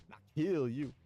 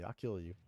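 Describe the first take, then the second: First: Louder, higher, growled-out thug threat; over-the-top dubbed thug threat; gangster threat. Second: Said in the usual way. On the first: Acted. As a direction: spit it like a hammed-up yakuza heavy. Reads the thug's threat twice.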